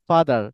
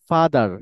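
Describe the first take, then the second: The two takes are said the same way.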